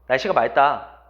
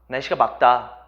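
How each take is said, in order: First: The cluster is read with an l sound. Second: The cluster is read with a k sound. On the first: The speaker calls it wrong. "일 번" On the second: The speaker calls it right. "정답은 막다입니다"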